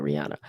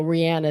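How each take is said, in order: First: The singer's name said the way people here call her, ree-ANN-a; how we say it. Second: The singer's name said the way she herself says it, ree-AH-na; her own way of saying it. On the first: Telling viewers how everyone here says the singer's name, local pronunciation. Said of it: "but we call her Rihanna". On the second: Explaining to viewers how the singer says her name, proper pronunciation. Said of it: "Rihanna is the way you say her name". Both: Shown as a demonstration.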